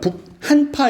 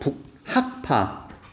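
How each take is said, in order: First: The second syllable ends in an n sound. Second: The second syllable ends in a k sound. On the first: The speaker calls it wrong. "북한파 이러면 안 돼요" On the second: The speaker calls it right. "이거 발음 잘해야 돼"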